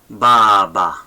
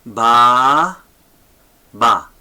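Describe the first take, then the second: First: Said in the usual way. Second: Loud, long "ba", pause, short "ba"; sounding out syllables for learners; two separate syllables. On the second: Shown as a demonstration. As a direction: break "baba" apart, stretching the first "ba". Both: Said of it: "two syllables here".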